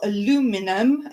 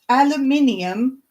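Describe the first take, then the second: First: It is said the American way. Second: It is said the British way.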